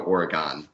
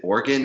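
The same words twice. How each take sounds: First: "Oregon" as OR-uh-GONE, last vowel sounded out; Oregon ending in -gone. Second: "Oregon" said as OR-gun, last vowel swallowed; Oregon ending in -gun. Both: Shown as a demonstration. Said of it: "is it Oregon or Oregon".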